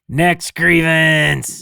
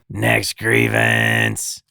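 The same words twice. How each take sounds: First: The voice has little rasp or gravel. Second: The voice is rough, raspy and gravelly. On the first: The speaker calls it wrong. "you need more. More rasp" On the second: The speaker calls it right. "Love that"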